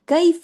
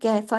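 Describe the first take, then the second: First: The first vowel glides softly into a y sound. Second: The first vowel is one flat Urdu-style vowel. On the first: The speaker calls it right. "कई काफ से कई" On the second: The speaker calls it wrong. "इसको उर्दू की तरह कैफा नहीं"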